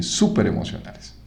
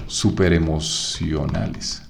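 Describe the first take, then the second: First: Whispered súper emocionales, no voice at all. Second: Said in the usual way. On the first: Shown as a demonstration. Teacher whispering the phrase back to the class, whispered.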